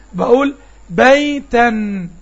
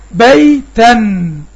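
First: بيتن said slowly, the nun of the tanween clear; slow demo of بيتن. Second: بيتن stretched very slowly and loud, nun held; drawn out demo of بيتن. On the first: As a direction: stretch بيتن gently. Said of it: "هرجع أقول التنوين تاني". (نطق بيتن ببطء) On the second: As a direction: hold the nun of بيتن long. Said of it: "مثل ما أقول". (نطق بيتن ممدودًا ببطء) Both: Shown as a demonstration.

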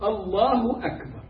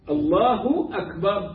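First: الله أكبر crisp with no stretched vowel; teaching takbir without madd; correct, no lengthening. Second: الله أكبر with the vowel stretched and a rising end; wrong drawn-out. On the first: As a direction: keep الله أكبر short and tight. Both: Shown as a demonstration. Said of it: "ليس فيها مد".

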